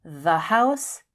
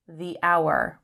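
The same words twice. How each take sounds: First: THE as "thuh" before house; short THE, H sounded in house. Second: THE as "thee" before hour, H silent; long ee in THE, linked into hour. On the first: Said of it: "begins with a consonant sound". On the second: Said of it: "So we say the hour". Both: Shown as a demonstration.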